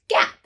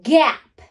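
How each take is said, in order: First: The word is said quickly. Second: The word is stretched out slowly. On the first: "Now say it in a snap" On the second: "Blend with me"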